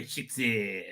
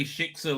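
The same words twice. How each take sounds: First: SHIKSA said low and soft with disdain; demeaning. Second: Said in the usual way. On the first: Shown as a demonstration. Host copying how Israelis say SHIKSA, demeaning. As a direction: drop SHIKSA down as a put-down. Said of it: "in a really demeaning way". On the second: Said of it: "The Israelis can say it".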